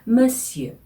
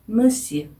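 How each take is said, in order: First: It sounds like 'muhsyuh' with rounded French vowels. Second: It sounds like 'muhsyuh' with rounded French vowels.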